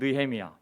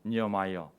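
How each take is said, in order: First: The name is said the Korean way, 'Neuhemiya'. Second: The name is said the English way, 'Niamaia'. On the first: "우리 발음은" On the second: "영어로는"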